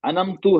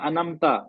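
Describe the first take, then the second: First: The word ends with a 'u' vowel. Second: The word ends with an 'a' vowel. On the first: The speaker calls it wrong. "गलत है" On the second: The speaker calls it right. "सही क्या है"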